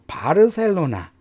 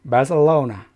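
First: It is said with Korean sounds and even syllables. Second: It is said with English sounds and stress. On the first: The speaker calls it wrong. "바르셀로나라고 그러는데 이것도 영어는 완전히 다른 발음이에요" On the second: The speaker calls it right. "바르셀로나 이렇게 발음해 주시면 돼요"

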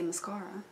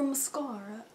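First: It is said with a British pronunciation. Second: It is said in the speaker's usual accent.

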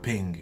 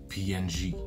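First: It is said as one word, ping. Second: It is spelled out letter by letter. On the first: This is the pronunciation the creator intended. "should actually be pronounced ping" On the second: This is the common everyday pronunciation. "Everyone who knows about PNG says PNG"

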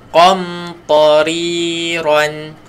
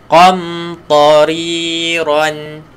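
Both takes have the same delivery.

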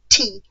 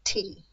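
First: The T is crisp and clearly released. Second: The T is soft and smudged, made further back. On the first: "it's not a clear T" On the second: "made behind his front teeth on his hard palate"

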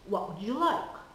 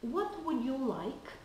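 First: The words are reduced and run together. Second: Each word is said fully and separately. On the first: "we usually hear something like" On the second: "instead of"

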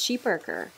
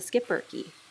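First: The word begins with an 'sh' sound. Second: The word begins with an 'sk' sound. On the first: This is the original pronunciation from the breed's home country. "the correct pronunciation of their breed is sheeperker" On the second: This is the usual North American pronunciation. "North Americans typically refer to them as the skipperky"

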